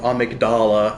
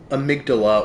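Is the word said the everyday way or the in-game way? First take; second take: in-game; everyday. First: It is pronounced the way the game says it. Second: It is pronounced the usual everyday way. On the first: "as they say it in game" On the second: "the name amygdala"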